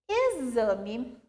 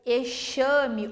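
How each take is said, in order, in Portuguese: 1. O x não soa como 'sh'. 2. O x soa como 'sh'. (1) "Como que eu pronuncio elas?" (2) "aqui eu não posso falar auxílio ou exame ou tóxico, tá errado"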